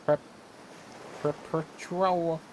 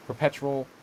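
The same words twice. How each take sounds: First: PERPETUAL drawn out slowly at a higher pitch; slow, laboured high attempt at "perpetual"; sounded out slowly. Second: Said in the usual way. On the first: Real, not acted. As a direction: stretch "perpetual" out, higher, feeling through it. Working out a hard word.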